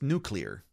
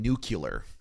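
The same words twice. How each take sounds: First: The middle sounds like 'klee', as in 'nuclear'. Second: The middle sounds like 'kyuh', as in 'nucular'. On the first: The speaker calls it right. "It's nuclear" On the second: The speaker calls it wrong. "You're saying nuclear"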